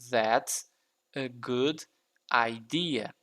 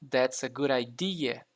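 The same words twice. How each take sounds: First: Each word is pronounced separately and carefully. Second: The words are run together quickly and linked. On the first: "Aqui eu pronunciei palavra por palavra" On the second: "Mas quando for falar rápido, vai ficar"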